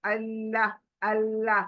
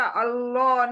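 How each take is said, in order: First: अल्लाह with a thin, light लाम, lips drawn; thin Allah. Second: अल्लाह with a full, heavy लाम; heavy Allah as wrong. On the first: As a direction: say अल्लाह thin, mouth narrow. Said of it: "अल्लाह बारीक करेंगे और मुंह एकदम पतला". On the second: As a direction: contrast अल्लाह with a thick, round लाम. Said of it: "पतला, अल्लाह नहीं". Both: Shown as a demonstration.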